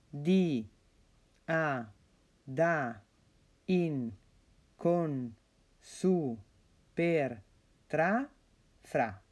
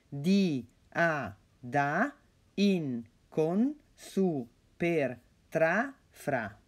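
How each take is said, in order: First: The list is read at a slower, normal pace. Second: The list is read at a quicker pace.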